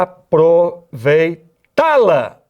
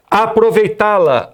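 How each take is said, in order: First: "aproveitá-la" drawn out very slowly, weight on the final "tá"; teacher spelling out "aproveitá-la" by its stressed last syllable. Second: Said in the usual way. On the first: Shown as a demonstration. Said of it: "Onde tá a tônica?". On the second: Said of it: "Olha lá".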